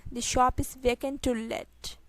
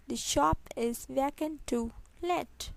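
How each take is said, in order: First: Said in the usual way. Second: Slow, separated words; slow repeat. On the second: Shown as a demonstration. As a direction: spell it out word by word. Teacher repeats sentence slowly. (धीरे-धीरे, शब्द अलग करके)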